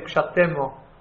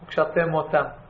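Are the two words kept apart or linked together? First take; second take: linked; apart. First: The two words are linked into one. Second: The two words are kept apart.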